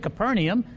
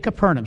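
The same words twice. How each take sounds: First: It uses the usual English pronunciation. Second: It uses the local Israeli pronunciation. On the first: This is not how local people say it. The speaker calls it wrong. "They don't say Capernaum" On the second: This is how local people say it. The speaker calls it right. "that's the way the natives call it in Israel"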